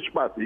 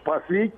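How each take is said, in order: First: The stress falls on the first syllable. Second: The stress falls on the last syllable. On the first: The speaker calls it wrong. "και όχι Σπάθη" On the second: The speaker calls it right. "θα με λέτε Σπάθη"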